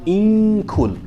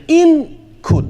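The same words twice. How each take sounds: First: "In kul" with the n held nasally into the k; high, held hum in "In kul", tongue ready for k; hidden noon. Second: "in kul" with a plain, unhidden n; clearly pronounced noon. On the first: Teacher showing what you say, "In kul" with hidden noon. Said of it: "you say what?". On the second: Teacher showing what not to say, "in kul" with clear noon. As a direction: finish the n of "in kul" before the k. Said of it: "So instead of saying". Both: Shown as a demonstration.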